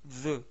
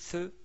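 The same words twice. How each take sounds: First: The th sounds like the start of the. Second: The th sounds like the start of three. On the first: The speaker calls it right. "mais plutôt the, comme dans le mot the man" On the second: The speaker calls it wrong. "mais sans prononcer the"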